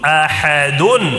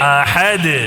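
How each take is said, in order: First: The word ends with a full 'un' sound. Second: The word ends abruptly on a bare 'd'. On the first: The reading continues without stopping. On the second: The reader stops at this word.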